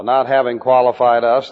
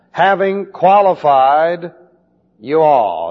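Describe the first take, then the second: First: Us said lower, as the wrong reading to reject; not having qualified us, set aside as the wrong version; correcting the wrong reading. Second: Having qualified raised and louder, then you all punched hard; stress on you all. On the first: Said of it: "There is no us here". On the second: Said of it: "This is you in the plural". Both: Shown as a demonstration.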